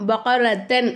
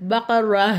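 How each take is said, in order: First: The word ends with a 't' and 'an'. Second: The word ends on a plain vowel, no 't'. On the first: The speaker calls it wrong. "பகரத்தன் அப்படின்னு நிப்பாட்டக்கூடாது" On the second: The speaker calls it right. "பகர அப்படின்னு நம்ம நிப்பாட்டணும்"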